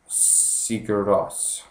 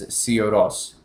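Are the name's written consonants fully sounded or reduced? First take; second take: full; reduced. First: Every written consonant in the name is clearly pronounced. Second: The middle consonants are dropped and the words run together. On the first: The speaker calls it wrong. "they call them by what their name looks like" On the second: The speaker calls it right. "the correct pronunciation is"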